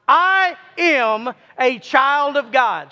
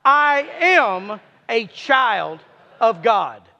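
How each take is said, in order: First: Slow group declaration. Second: Slow, each word pressed down; slow firm conviction on am. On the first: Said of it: "Let's all say it again". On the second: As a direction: declare it, leaning on I am. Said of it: "say it with conviction". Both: Shown as a demonstration.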